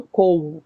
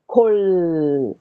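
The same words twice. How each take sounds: First: Kol, said the wrong way without a clear final L; the mistaken kol the teacher warns against. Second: Kol, the L at the end clearly sounded; teacher stresses the final L of Kol. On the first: Teacher showing the class the wrong kol, as a contrast. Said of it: "Não kol". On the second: Teacher drilling the class on Hebrew Kol, final L pronounced. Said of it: "o L tem que ser L no final". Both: Shown as a demonstration.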